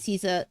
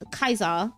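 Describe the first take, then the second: First: The name begins with an S sound. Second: The name begins with a K sound.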